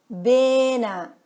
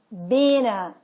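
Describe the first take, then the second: First: The t drops and the words blend together. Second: The same.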